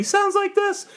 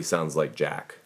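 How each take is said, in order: First: Put-on squeaky high little-kid voice; very high-pitched kiddie imitation; very young voice. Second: Lightly voiced old man, low; everybody-gets-old low voice. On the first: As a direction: jump way up high like a tiny child. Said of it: "When you're very, very young". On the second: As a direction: drop lower for an old-timer. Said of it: "when you're very, very old". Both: Shown as a demonstration.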